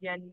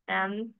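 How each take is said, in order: First: The letter name starts with a y sound. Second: The letter name starts with a plain vowel. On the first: The speaker calls it wrong. "they will going to pronounce it as" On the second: The speaker calls it right. "this is how you have to do the pronunciation"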